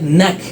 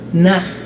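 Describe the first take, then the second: First: The final consonant stops short and dry. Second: The final consonant releases a little airy friction. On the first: "directamente seco" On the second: "Pasamos la lengua más arriba para que salga un pequeño aire"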